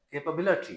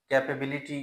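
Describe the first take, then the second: First: "कैपेबिलिटी" as kay-puh-BIL-uh-tee; correct pronunciation. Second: "कैपेबिलिटी" as kae-pay-BIL-i-tee; full ay in second syllable of "कैपेबिलिटी"; wrong pronunciation. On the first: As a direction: schwas around BIL in "कैपेबिलिटी". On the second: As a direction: say "कैपेबिलिटी" with every vowel full. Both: Shown as a demonstration. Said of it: "जो कि गलत है".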